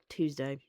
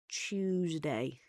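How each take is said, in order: First: It is said in an American accent. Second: It is said in a London accent. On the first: "or Americans" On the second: "like Londoners"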